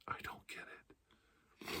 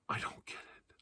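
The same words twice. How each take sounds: First: Barely audible, slow whisper; slow faint whisper. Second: Whispered disbelief. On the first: Comic to audience, trailing slow whisper. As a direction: breathe it out slowly, almost gone. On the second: Comic to audience, confused whisper. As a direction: whisper it to yourself. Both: Shown as a demonstration.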